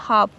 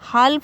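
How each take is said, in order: First: No l sound is heard before the f. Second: An l sound is heard before the f. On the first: The speaker calls it right. "बल्कि क्या पढ़ेंगे, हाफ" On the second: The speaker calls it wrong. "हाल्फ नहीं पढ़ेंगे"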